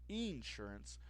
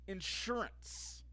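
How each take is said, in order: First: It is said in a Southern US accent. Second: It is said in a general, non-Southern accent.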